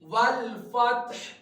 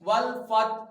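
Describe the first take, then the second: First: The word ends with an audible h sound. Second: The word ends without an audible h sound. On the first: The speaker calls it right. "Last में हा की आवाज आएगी वक्फ करते हुए" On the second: The speaker calls it wrong. "हा की आवाज निकालते नहीं है।"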